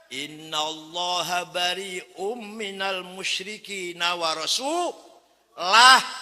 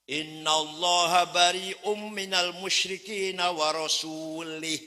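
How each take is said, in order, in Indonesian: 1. Kata terakhir berakhir dengan vokal u. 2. Kata terakhir berakhir dengan vokal i. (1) "Yang benar bacanya"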